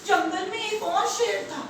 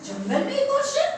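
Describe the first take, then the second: First: Said in the usual way. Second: High, rising echo of disbelief; incredulous question. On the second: Acted. Lion hears of a rival in his jungle, incredulous. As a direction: repeat it climbing sharply at the end.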